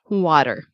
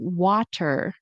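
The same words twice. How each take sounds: First: The middle consonant is a quick D. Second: The middle consonant is a clear T. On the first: "like a fast D" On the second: "instead of saying water"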